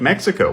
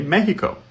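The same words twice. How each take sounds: First: It is said with an English pronunciation. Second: It is said with a Spanish pronunciation. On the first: "when we use an endonym like Mexico" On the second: "an average Spanish speaker would say"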